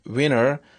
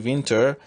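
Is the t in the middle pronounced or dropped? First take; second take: dropped; pronounced. First: The t is dropped, leaving a nasal tap. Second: The t after the n is pronounced.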